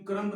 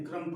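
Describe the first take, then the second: First: क्रम्ब with a released b at the end; B sounded in क्रम्ब. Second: क्रम्ब said as "krum"; silent B in क्रम्ब. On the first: Teacher rejecting the misreading, final b pronounced. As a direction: say क्रम्ब wrongly, finishing on b. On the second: Teacher giving the right reading, final b silent. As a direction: end क्रम्ब on m, no b. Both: Shown as a demonstration. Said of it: "क्रम्ब नहीं पढ़ेंगे".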